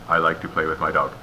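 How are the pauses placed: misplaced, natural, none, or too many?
none. It is run together with no pauses. "or no pauses"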